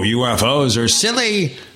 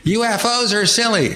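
First: It is said in a normal pitch. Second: It is said in a squeaky, high-pitched voice.

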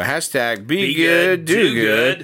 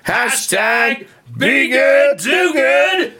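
First: It is said at the quietest level. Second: It is said louder than before. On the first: "Say it louder and louder" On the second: "Say it louder and louder"

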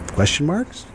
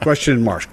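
First: The voice rises at the end. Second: The voice falls at the end.

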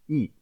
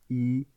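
First: The pitch falls sharply from high to low. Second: The pitch stays high and level. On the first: "Ce quatrième ton se prononce I" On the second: "pour le chiffre 1 au premier ton"

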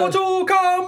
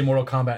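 First: It is screamed loudly. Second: It is said in a normal speaking voice.

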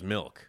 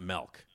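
First: The vowel sounds like the i in 'sit'. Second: The vowel sounds like the e in 'set'. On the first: The speaker calls it right. "now the word is milk" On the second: The speaker calls it wrong. "It's not milk"

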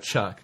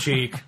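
First: The name has the plain English vowel sound. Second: The name has a Spanish-style 'ee' vowel sound.

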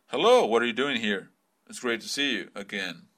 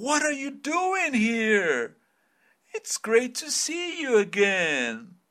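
First: It is said flat, without intonation. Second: It is said with lively, surprised intonation.

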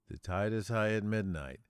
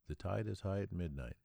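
First: It is said somewhat louder. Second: It is said at a low volume.

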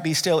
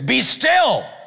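First: It is said softly and gently. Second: It is said sharply and forcefully.

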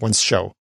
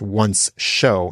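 First: The two words run together, the 's' sounds blending into one. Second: The two words are pulled apart, each 's' sound said separately. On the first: "instead of" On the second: "I really had to emphasize that those are two words"

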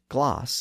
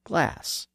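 First: The vowel is the lower, back ah sound. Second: The vowel is the higher, front a sound. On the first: This is how it is said in southern England. "and gloss" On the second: This is how most other English speakers say it. "instead of glass"

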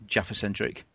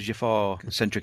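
First: The final A of Jaffa is short. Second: The final A of Jaffa is drawn out. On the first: "the way you say Jaffa, it sounds like an orange" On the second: "They pronounce it by elongating the A"

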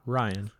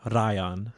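First: The R at the start is plain. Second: The R at the start is rolled. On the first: "not Ryan" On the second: "I'm a master of rolling the R's. My name is Ryan"

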